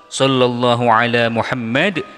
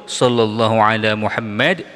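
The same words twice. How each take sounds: No difference in how they are said.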